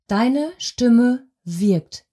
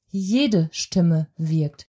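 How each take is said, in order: First: Stimme stretched and weighted, said very slowly; slow emphasis on Stimme. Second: Jede stressed and drawn out, said very slowly; slow emphasis on Jede. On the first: Voice coach telling her audience, slow weight on Stimme. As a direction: lean hard on Stimme, word by word. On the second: Voice coach generalising to everyone, slow weight on Jede. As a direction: hit Jede, then let the phrase settle low. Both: Shown as a demonstration. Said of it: "voice coach stresses key phrase".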